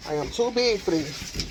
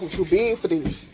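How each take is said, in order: First: "I am too big for this" slower, each word stressed, "am" spelled out; slower emphatic repeat. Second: Said in the usual way. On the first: Shown as a demonstration. Vlogger repeating to herself how tired she is, slow and emphatic. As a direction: lean on "am" and slow down, softer.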